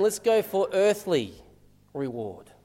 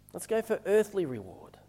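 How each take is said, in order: First: Lightly voiced inner urge, slow, dropping away on "reward"; inner little voice. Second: Softer repeat in one unbroken phrase; inner little voice. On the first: Preacher voicing everyone's inner little voice, slow and tempting. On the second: Acted. Preacher echoing the inner little voice to the congregation, hushed and understated. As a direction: say it quietly, like a private urging. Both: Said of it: "this inner little voice".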